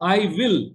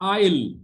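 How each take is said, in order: First: Both words are said fully and separately. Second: The words are contracted into one syllable.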